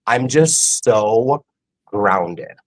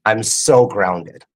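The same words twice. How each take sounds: First: Said in the usual way. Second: I'm so grounded, drawn out slowly with weight on "so"; slow stress on so. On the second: Shown as a demonstration. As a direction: lean slowly into "so". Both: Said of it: "I'm just gonna say it".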